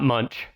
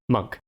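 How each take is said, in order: First: The name ends with a 'ch' sound. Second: The name ends with a 'k' sound. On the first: The speaker calls it wrong. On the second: The speaker calls it right.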